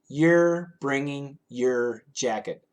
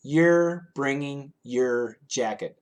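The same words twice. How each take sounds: First: The words are said quickly and run together. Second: The words are said quickly and run together.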